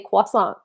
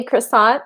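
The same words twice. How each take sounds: First: Croissant said kwa-SON, French r and nasal end. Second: Croissant said kruh-SANT, with an English r and a hard t. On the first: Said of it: "I'm not gonna say croissant". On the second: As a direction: say croissant the plain American way. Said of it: "I'm gonna say croissant". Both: Shown as a demonstration.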